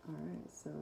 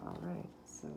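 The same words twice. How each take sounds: The two takes are said the same way.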